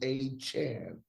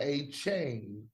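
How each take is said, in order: First: The last syllable rhymes with 'man'. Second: The last syllable rhymes with 'rain'. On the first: The speaker calls it right. "Chan A Chan C H A N" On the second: The speaker calls it wrong. "not [name]. He ain't two chains"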